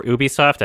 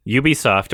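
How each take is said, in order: First: Ubisoft starting with an "oo" sound; alternative pronunciation. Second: Ubisoft starting with a "you" sound; first pronunciation option. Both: Shown as a demonstration. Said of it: "don't know how I'm supposed to pronounce it".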